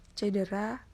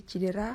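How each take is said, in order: First: Said in the usual way. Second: "cedera" said as "cidera"; "cedera" starting with ci-; non-standard pronunciation. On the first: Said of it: "contoh kata baku dan kata". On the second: Shown as a demonstration. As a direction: say "cedera" with I in the first syllable.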